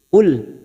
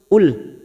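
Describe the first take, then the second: The two takes are said the same way.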